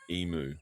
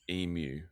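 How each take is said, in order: First: The second syllable sounds like moo. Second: The second syllable sounds like myoo. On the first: This is how Americans say it. The speaker calls it wrong. "Americans say emu" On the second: This is how Australians say it. The speaker calls it right. "but it's emu"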